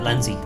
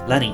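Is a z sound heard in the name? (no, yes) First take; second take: yes; no. First: The name is said with a z sound. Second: The name is said without a z sound. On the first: The speaker calls it wrong. "Sorry, not Lenzie" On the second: The speaker calls it right. "you don't pronounce the Z's"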